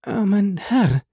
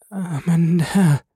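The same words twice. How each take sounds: First: Higher, slow, trembling murmur; wife murmuring in fear; fearful murmur. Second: High, slow, trembling murmur; wife murmuring in fear; fearful murmur. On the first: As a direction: breathe it out again, more desperate. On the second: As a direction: breathe the words out in dread. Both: A narrator's reading. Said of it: "murmelte sie".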